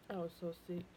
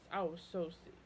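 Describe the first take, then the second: No difference in how they are said.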